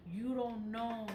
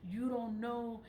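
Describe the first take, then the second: No difference in how they are said.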